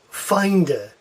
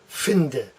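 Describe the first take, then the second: First: It is read the way English speakers would. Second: It is read the way Germans would. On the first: The speaker calls it wrong. "when English students look at that word, they think finde" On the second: The speaker calls it right. "The true pronunciation here is finde"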